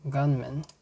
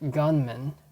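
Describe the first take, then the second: Both takes have the same delivery.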